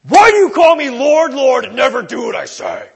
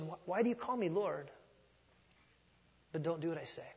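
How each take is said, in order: First: Mock angry, high and much louder shout; ticked-off Jesus. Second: Softer, gentle and searching; honest, piercing question. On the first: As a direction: bark it like a ticked-off boss. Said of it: "with a ticked off tone". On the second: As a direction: ask it quietly, like an honest question. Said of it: "piercing and an honest evaluation". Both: Shown as a demonstration.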